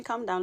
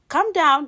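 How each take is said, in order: First: Said in the usual way. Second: Calm down, high and loud; loud plea. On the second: Real, not acted. Host cutting off listeners before they react, loud high plea. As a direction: cut off the listeners' outrage. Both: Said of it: "Those of you listening".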